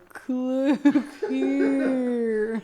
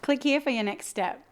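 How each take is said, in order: First: It is said very slowly. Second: It is said quickly and enthusiastically.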